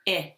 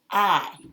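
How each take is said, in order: First: The vowel is the short i sound. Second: The vowel is the long i sound. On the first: "the short vowel sound" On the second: "make a long sound where it says it's a name"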